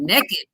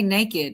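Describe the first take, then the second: First: It is said imitating a Southern accent. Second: It is said in her own neutral accent.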